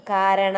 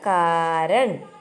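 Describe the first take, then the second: First: കാരണ with a full final vowel, spoken slowly; wrong reading. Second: കാരൺ very slowly, closing on ൺ with no final vowel; correct reading. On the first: Teacher shows children the wrong reading കാരണ, slow. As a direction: say കാരണ the wrong way, ending on an open അ. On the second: Teacher gives children the correct കാരൺ, very slow. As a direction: say കാരൺ the right way, ending on ൺ. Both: Shown as a demonstration. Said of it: "കാരണ എന്നല്ല".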